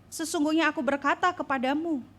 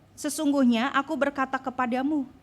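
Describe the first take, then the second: No difference in how they are said.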